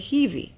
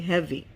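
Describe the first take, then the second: First: The first vowel is a long ee sound. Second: The first vowel is a short eh sound. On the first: The speaker calls it wrong. "you don't say heavy" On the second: The speaker calls it right. "you say heavy"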